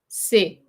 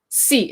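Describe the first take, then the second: First: The consonant is said softly, with little burst. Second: The consonant is said harshly, with a strong burst. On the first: This is the French way of saying it. "French is very, like, soft" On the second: This is the English way of saying it. "English P's and T's are very harsh"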